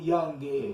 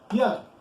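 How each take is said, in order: First: An extra vowel sound follows the final consonant. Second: The word ends on its consonant with no vowel. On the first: The speaker calls it wrong. "Not youngy" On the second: The speaker calls it right. "It says young"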